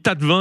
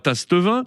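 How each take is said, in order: First: The middle S is silent. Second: The middle S is pronounced. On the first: The speaker calls it right. "on dit tas de vin" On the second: The speaker calls it wrong. "et non pas tasse de vin"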